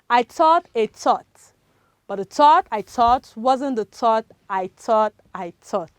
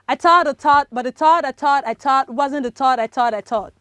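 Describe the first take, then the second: First: It is said slowly. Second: It is said fast.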